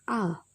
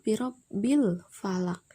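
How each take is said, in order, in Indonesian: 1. Artikel dimulai dengan bunyi 'a' yang jelas. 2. 'a' pada artikel dihilangkan, menyambung dengan kata sebelumnya. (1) "alif lamnya terbaca jelas" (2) "alifnya tidak terbaca"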